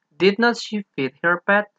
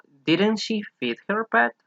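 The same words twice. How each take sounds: First: "Did not" said as two full words, slow and careful; full form did not. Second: "didn't" as one contracted word, slow; contraction didn't. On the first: Teacher to students, slow full "did not". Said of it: "o didn't she feed her pet". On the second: Teacher to students, slow contracted "didn't". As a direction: say the short "didn't" clearly. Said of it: "o didn't". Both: Shown as a demonstration.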